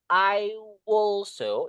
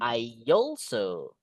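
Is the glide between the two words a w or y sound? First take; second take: w sound; y sound. First: A w sound links the two words. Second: A y sound links the two words. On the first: The speaker calls it wrong. "Kita tambah W" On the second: The speaker calls it right. "I pasti deket sama Y kan?"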